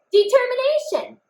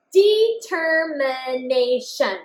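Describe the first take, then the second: First: Determination said much higher, quick and proud; triumphant read. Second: Determination said slowly, every syllable clear; slow check read. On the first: Teacher celebrates the finished spelling with the class. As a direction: pop it out like a win. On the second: Teacher rereads the written word to check it. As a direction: read it back slowly and carefully. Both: Shown as a demonstration. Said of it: "I wrote all the sounds that I heard".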